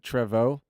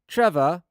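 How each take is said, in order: First: The name is pronounced a different, non-English way. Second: The name is pronounced the English way. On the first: "Or is it Trevo? Nobody calls him Trevo" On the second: "pronounced like an Englishman pronounces it"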